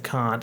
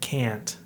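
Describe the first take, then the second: First: The word is said with an Australian-sounding vowel. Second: The word is said with an American-sounding vowel. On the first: The speaker calls it wrong. "if I said can't, it sounds stupid" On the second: The speaker calls it right. "I said can't"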